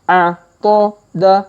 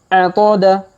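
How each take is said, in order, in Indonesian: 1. Hurufnya dibaca lambat. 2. Hurufnya dibaca cepat. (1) "Kita baca pelan-pelan" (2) "kalau dipercepat"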